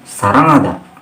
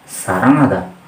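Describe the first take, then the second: No difference in how they are said.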